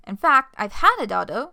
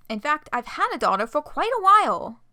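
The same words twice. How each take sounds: First: Loud angry declaration. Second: High, cutesy uwu voice, louder. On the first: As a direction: spit it out, fed up. Jade angrily confronting John. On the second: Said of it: "needing to do the Uwu voice". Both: Acted.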